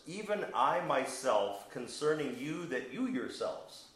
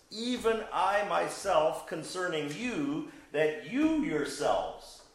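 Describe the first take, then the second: First: Said in the usual way. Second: Each word drawn out, higher and louder; slow emphatic. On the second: Shown as a demonstration. Preacher rereads Paul's words to the class, slow and emphatic. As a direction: lean hard on "even I myself" and "you yourselves", slowly. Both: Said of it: "It's very emphatic".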